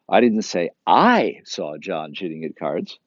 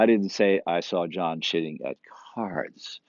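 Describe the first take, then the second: First: The second word I is stressed. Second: The word cards is stressed. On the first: Someone else saw it. "Someone else saw" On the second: He cheated at something else. "He's cheating a lot, just not at cards"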